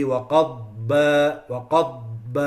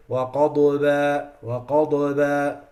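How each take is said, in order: First: وَقَضْبَ with a firm dad, no bounce; correct dad. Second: وَقَضْبَ with a bouncing echo on the dad; added qalqala. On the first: Teacher giving the right recitation. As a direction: say وَقَضْبَ cleanly, no echo. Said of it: "like this". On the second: Teacher showing the wrong recitation. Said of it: "Has to be". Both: Shown as a demonstration.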